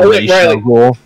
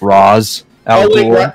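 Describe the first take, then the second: First: The first name ends with an 'sh' sound. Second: The first name ends with a 'z' sound. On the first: The speaker calls it right. "and it's Raish. It's always been Raish" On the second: The speaker calls it wrong. "they kept mispronouncing Raish's name as Raz"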